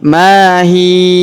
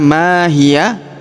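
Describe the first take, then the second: First: The word stops without any final vowel. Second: The word ends with an added a vowel. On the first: The speaker calls it right. "karena kita berhenti di sini" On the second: The speaker calls it wrong. "Jadi bukan dibaca mahia"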